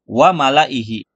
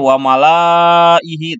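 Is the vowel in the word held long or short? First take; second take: short; long. First: The vowel is kept short. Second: The vowel is drawn out long. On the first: The speaker calls it right. "bacanya pendek, malah dibacanya wa malaihi" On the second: The speaker calls it wrong. "Harusnya sih wa malaihi"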